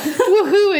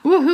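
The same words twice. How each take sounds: First: The yell sounds joyful and celebratory. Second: The yell sounds panicked and frightened. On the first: The person is celebrating the start of summer. The speaker calls it right. "the tone of your yell is, like, woohoo, it's summer vacation" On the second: The person is fleeing danger in terror. The speaker calls it wrong. "not woohoo, I'm being chased by an axe murderer"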